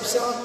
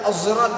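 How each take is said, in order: First: The word begins with an s sound. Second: The word begins with a z sound. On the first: This is the usual written reading. "di setiap sirat" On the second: This is one reciter's reading. "membaca az-zirat"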